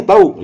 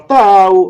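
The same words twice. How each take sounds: First: "Tahu" short, high, with a falling end; knowing intonation. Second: "tahu" stretched long, high and loud; don't-know intonation. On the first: Replying to a question, "Tahu" as I know. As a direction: answer "Tahu" loud and definite, meaning I know. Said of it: "itu artinya tahu". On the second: Teacher contrasting meanings, "tahu" as don't know. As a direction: draw out "tahu" to mean no idea. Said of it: "nah, itu biasanya gitu". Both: Shown as a demonstration.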